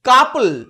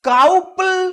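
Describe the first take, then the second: First: The first vowel sounds like 'uh'. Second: The first vowel sounds like 'ow'. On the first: The speaker calls it right. "এগুলোর উচ্চারণ আবার শুধু আয়ের মতো" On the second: The speaker calls it wrong. "ডাউবল নয়"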